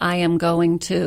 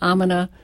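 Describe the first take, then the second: First: Each word is pronounced clearly and separately. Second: The words are slurred together into one short word. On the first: The speaker sounds more intelligent. The speaker calls it right. "instead of I am going to" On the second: The speaker sounds less assured. The speaker calls it wrong. "we have to be careful of could you, would you, gimme, gonna"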